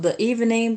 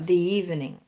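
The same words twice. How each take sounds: First: 'The' is said with a short 'thuh' vowel. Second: 'The' is said with a long 'thee' vowel. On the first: The speaker calls it wrong. "Not the evening" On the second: The speaker calls it right. "but the evening"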